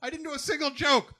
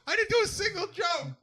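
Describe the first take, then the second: First: High, desperate disbelief; panicked. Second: High, frantic shout. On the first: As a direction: wail it in mock despair. Voiced panic, repeated. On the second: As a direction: yell it, higher still. Repeated louder as shout. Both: Pretend.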